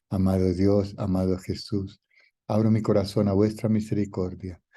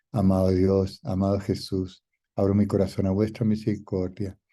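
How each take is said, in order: Both takes have the same delivery.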